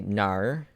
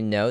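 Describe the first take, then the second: First: It is said in an Australian accent. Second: It is said in the speaker's plain accent.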